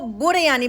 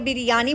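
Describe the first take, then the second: First: It is said the way Sri Lankans say it. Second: It is said the way people in Karachi say it. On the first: "जो श्रीलंकन हैं वो इसको बुरयानी बोलते हैं" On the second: "Karachi वाले बिरयानी बोलते हैं"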